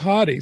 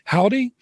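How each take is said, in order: First: The first vowel sounds like 'hot'. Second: The first vowel sounds like 'how'. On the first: The speaker calls it right. "but it is Hottie" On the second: The speaker calls it wrong. "Most people say howdy"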